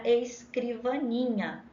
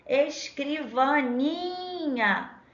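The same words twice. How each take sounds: First: Said in the usual way. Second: "escrivaninha" called out slow and high, NI held long; calling the word. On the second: Shown as a demonstration. Teacher finding the tonic syllable, "escrivaninha" called out with a long NI. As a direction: call "escrivaninha" like a name, stretching the "ni". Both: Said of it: "a gente chama a palavra".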